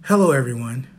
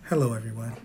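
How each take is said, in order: First: Said in the usual way. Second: Put-on soft, lower babyish voice; baby face voice. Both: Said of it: "This is my baby face voice".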